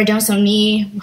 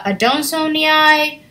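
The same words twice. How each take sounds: First: Adansonii with a shorter "nee" ending; alternative pronunciation. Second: Adansonii with the final double i as two vowels, "ee-eye"; first pronunciation variant. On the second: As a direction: say adansonii ending "nee-eye". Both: Shown as a demonstration. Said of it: "however you wanna pronounce it".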